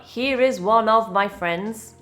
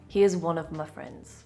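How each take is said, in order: First: Here is and of are said in full. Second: Here's is contracted and of is reduced. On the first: The speaker calls it wrong. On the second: The speaker calls it right. "Of becomes of"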